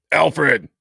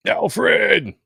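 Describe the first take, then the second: First: Slow, drawn-out Alfred; slow call. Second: High, loud call of Alfred; shout. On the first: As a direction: stretch the name out slowly. Second call out. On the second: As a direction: yell the name out in alarm. Calling out at a comic panel. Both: Acted.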